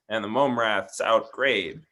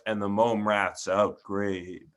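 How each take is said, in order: First: The line is read in a happy, light tone. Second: The line is read in a chilling, calm tone. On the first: It feels like a happy ending after the adventure. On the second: It feels eerie, as at the first reading.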